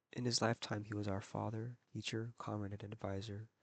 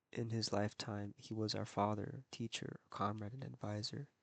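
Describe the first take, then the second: No difference in how they are said.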